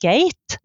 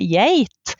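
First: The word begins with a hard g sound. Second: The word begins with a y sound. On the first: The speaker calls it wrong. "Vi sier ikke geit" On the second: The speaker calls it right. "vi sier geit"

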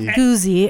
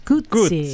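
First: The middle consonant is a buzzing z sound. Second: The middle consonant is a ts sound. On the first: The speaker calls it wrong. "Not Guzzi" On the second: The speaker calls it right. "it's Guzzi. Think pizza"

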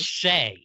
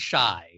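First: The vowel sounds like 'ay'. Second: The vowel sounds like 'eye'. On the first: This is someone else's pronunciation. "Brandon says Shay" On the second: This is the speaker's own pronunciation. "I say shy"

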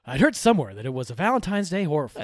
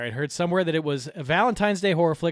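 First: It is read in a smooth, deep radio voice. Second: It is read in an ordinary speaking voice.

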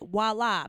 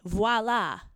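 First: The word starts with a W sound. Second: The word starts with a V sound. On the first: The speaker calls it wrong. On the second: The speaker calls it right. "it's spelled voila with a V. It's V-O-I-L-A, voila"

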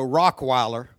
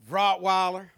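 First: The middle consonant is a K sound. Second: The middle consonant is a T sound. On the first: The speaker calls it wrong. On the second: The speaker calls it right.

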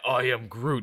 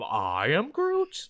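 First: The voice falls at the end like a statement. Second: The voice rises at the end like a question.

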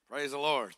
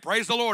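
First: It sounds bitter and resentful. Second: It sounds cheerful and upbeat.

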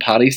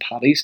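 First: The middle consonant is a clear D sound. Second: The middle consonant is a T sound. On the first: The speaker calls it right. "it's DD" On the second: The speaker calls it wrong. "not TT"

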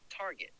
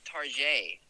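First: The name is said in a plain, ordinary way. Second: The name is said in a fancy, posh way.

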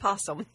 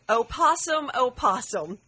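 First: It is said as possum with no 'oh'. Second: It begins with a separate 'oh' before possum. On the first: It is just the animal's name. The speaker calls it right. "when it was just possum" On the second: The poem is addressing the possum. The speaker calls it wrong. "I did have a lady one time read a poem to me that said"

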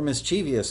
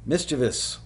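First: The word has an Illinois regional pronunciation. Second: The word has a standard pronunciation.

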